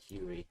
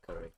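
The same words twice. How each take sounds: First: "Curie" said with a long "cue" first syllable; "Curie", opening on a "kyoo" sound; former pronunciation Curie. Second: "Curry" said like the spicy dish; "Curry", no "y" glide after the C; current pronunciation Curry. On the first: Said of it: "I used to pronounce it Curie". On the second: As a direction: say "Curry" with a short "cuh" first syllable. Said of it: "Now I pronounce it Curry". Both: Shown as a demonstration.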